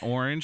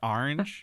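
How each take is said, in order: First: Orange is said with a non-East Coast pronunciation. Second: Orange is said with an East Coast pronunciation. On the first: The speaker calls it wrong. "It's not orange" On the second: The speaker calls it right. "If you're from the East Coast, it's orange"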